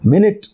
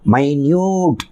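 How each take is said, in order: First: The first syllable sounds like 'min'. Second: The first syllable sounds like 'my'. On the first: It means a unit of sixty seconds. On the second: It means very small or tiny.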